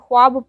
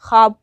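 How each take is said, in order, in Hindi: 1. 'kh' के बाद 'w' की ध्वनि बोली जाती है। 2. 'kh' के बाद 'w' की ध्वनि नहीं बोली जाती। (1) "ख्वाब पढ़ा नहीं जाएगा" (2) "ख्वाब पढ़ा जाएगा"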